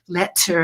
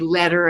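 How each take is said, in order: First: The middle consonant is a clear crisp T. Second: The middle consonant is a soft D-like flap. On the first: "not letter and water the way you may" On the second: "American English dialect where we say letter"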